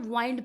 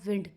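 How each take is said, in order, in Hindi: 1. स्वर की ध्वनि लंबी 'eye' वाली है। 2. स्वर की ध्वनि छोटी 'ih' वाली है। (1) "कुछ लोग इसको ना वाइंड भी प्रोनाउंस करते होंगे" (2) "इसकी जो राइट प्रोनाउंसिएशन बनती है वो बनती है विंड"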